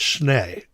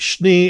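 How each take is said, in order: First: The name is said the relatives' way. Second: The name is said the California way. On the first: This is how relatives elsewhere say it. "It's actually pronounced Schnee" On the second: This is how his own family says it. "the California um, uh, uh, pronunciation"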